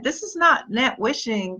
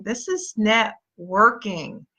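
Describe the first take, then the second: First: "not net wishing" with "not" hit and the words split apart as "net" and "wishing"; teaching the contrast, "not net wishing" spelled out word by word; stress on NOT. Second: "networking" said slowly as one solid word; slow, deliberate networking. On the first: Coach to team, warning off empty wishing, stressing NOT. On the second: Coach drives home the real word, slow and deliberate. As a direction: land "networking" slow and firm. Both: Shown as a demonstration.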